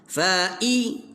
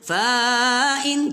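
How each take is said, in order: First: The first vowel is kept short. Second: The first vowel is drawn out long. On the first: The speaker calls it right. "fa'i tak panjang" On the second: The speaker calls it wrong. "jangan baca panjang... jangan baca fa'in, tak mau"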